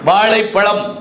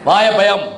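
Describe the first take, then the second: First: The word uses the retroflex 'zh' sound. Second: The word uses a plain 'y' sound instead. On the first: The speaker calls it right. "வாழைப்பழம் சொல்லு" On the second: The speaker calls it wrong. "அது பையன் வாயப்பயம் அப்படிங்கிறான்"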